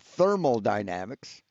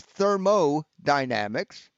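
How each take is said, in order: First: The first part is said as 'thermal'. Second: The first part is said as 'thermo'. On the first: The speaker calls it wrong. "not thermal dynamics" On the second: The speaker calls it right. "The word's thermodynamics"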